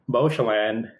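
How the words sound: The name is pronounced the Canadian English way. "they say it all Canadian English"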